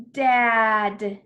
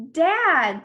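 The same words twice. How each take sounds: First: Dad slowly, with a long vowel; drawn-out blending. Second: Said in the usual way. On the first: Shown as a demonstration. Teacher blends letter sounds, Dad drawn out. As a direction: stretch every sound of Dad loudly.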